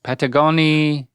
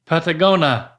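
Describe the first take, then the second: First: Patagonia said with all syllables, ending -nia; correct pronunciation. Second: Patagonia clipped to -na, the I dropped; wrong pronunciation. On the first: Shown as a demonstration. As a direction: spell out Patagonia clearly with the final I-A. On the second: Real, not acted. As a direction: Patagonia missing its last syllable.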